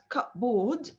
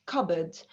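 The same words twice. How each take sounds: First: CUPBOARD as two words, "cup" plus a full "board"; spelling pronunciation. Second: CUPBOARD said as "CUB-id", weak second syllable; silent P. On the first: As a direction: say "cupboard" as written, with a full "oar" vowel. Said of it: "It's not cupboard". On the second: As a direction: drop the p and r in "cupboard", reduced ending. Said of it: "So the P here is silent". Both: Shown as a demonstration.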